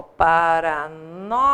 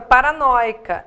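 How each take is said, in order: First: "Paranoica" slow and loud, stretched on "noi"; syllable by syllable. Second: Said in the usual way. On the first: Shown as a demonstration. Teacher showing the stressed syllable to students, "Paranoica" drawn out in pieces.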